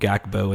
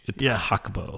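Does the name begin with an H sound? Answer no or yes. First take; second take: no; yes. First: The name does not begin with an H sound. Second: The name begins with an H sound. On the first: This is how the announcers said it. The speaker calls it wrong. "The announcers were calling him Gakpo" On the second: This is the Dutch pronunciation. The speaker calls it right. "no, it's H"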